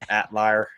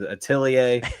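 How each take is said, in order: First: The word begins with a clipped 'at' sound. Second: The word begins with a full 'at-el' sound. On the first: The speaker calls it wrong. "my southern self has called it Atlier for so long" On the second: The speaker calls it right. "but it is Atelier"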